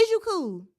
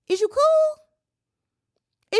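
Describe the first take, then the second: First: Said in the usual way. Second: Very high, very slow, drawn-out "Is you cool"; put-on high disbelieving voice; incredulous squeal. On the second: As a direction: stretch it out in a high mock squeal. Incredulous question, repeated.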